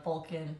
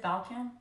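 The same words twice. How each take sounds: First: Balkan said as "BOL-kin"; first vowel as O. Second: Balkan said as "BAL-kin"; first vowel as A. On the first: Retelling husband's explanation, Balkan as "BOL-kin". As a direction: say Balkan with a round O, like "bowl-kin". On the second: Checking her own wording, Balkan as "BAL-kin". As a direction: ask Balkan with the short A of "pal". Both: Shown as a demonstration. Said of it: "is it Balkan".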